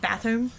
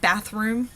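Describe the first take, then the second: First: The r sound is left out of the word. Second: The r sound is clearly pronounced in the word. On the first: This is how the Texas-born student says it. "she says bathroom" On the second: This is the form the student does not use. "not bathroom"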